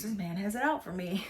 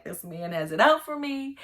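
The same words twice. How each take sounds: First: Said in the usual way. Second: Louder, higher panicky king; king fearing a trap; panicked king. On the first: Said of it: "he's like". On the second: Retold or imitated. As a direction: freak out as the king. First panicked king quote.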